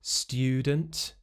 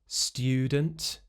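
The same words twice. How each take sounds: First: It has a separate t and y sound. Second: The same.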